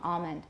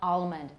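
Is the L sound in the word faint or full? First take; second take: faint; full. First: The L is faint, with only the tongue back tensed. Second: The L is fully pronounced as a complete L. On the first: "A lot of people have velarization for that L" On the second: "But it's not palm, almond"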